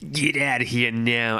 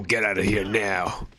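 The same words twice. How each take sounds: First: Light, put-on New York accent; attempted New York accent. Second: Said in the usual way. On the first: Streamer voicing Aya from New York, attempted New York accent. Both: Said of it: "gonna try to do a New York".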